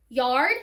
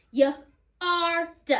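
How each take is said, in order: First: Said in the usual way. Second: "Y-R-D" as yuh, ar, duh; sounded out. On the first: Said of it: "my second syllable is yard". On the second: Shown as a demonstration. Teacher counting phonemes again, "Y-R-D" sounded out as yuh-ar-duh. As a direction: segment "Y-R-D" into three separate sounds. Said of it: "Three phonemes again".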